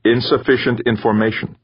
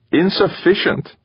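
First: Lightly voiced computer, level and slightly high; flat synthesized voice. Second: High-pitched, baffled echo; incredulous echo. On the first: Computer refusing Gaeta's question, flat synthesized voice. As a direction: state it evenly, a hint of machine. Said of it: "the computer's flat, synthesized voice". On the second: Gaeta echoing the computer's answer, incredulous. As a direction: throw the word back much higher, baffled. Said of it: "Gaeta echoed". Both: A narrator's reading.

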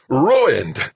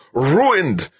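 First: High, loud outraged roar; raging scientist's roar; furious roar. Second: Even higher, loud despairing roar; raging final outburst; furious roar. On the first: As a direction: roar it as if all is lost. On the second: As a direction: roar the loss at full force. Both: A narrator's reading. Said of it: "Zimmerman roared".

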